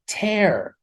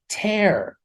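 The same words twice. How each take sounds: First: The vowel sounds like the one in wear. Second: The vowel sounds like the one in wear.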